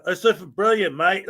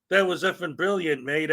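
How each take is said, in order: First: Put-on accent on "mate", said like "mite"; Australian-style "mate" accent. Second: Said in the usual way. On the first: Shown as a demonstration. Streamer showing how they wanted to praise a viewer's email, mock accent. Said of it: "like, with the accent". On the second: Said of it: "I tried to say it in a way like I didn't wanna say".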